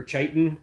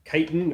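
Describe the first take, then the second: First: "chitin" with a CH start, CHY-tin; "chitin" opening like "child"; CH pronunciation. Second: "Chitin" with a hard K start, KY-tin; "Chitin" opening on a K sound; hard K pronunciation. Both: Shown as a demonstration. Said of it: "is it chitin or chitin?".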